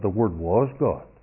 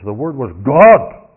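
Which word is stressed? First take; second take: was; God. First: The stress falls on the verb was. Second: The stress falls on the word God. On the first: The speaker calls it wrong. "The emphasis is not on the verb. It's not that" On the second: The speaker calls it right. "It's the thunder of God"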